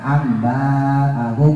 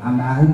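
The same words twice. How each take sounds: First: The vowel after the b is drawn out long. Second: The vowel after the b is short. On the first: The speaker calls it wrong. "bukan amba'ahum" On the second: The speaker calls it right.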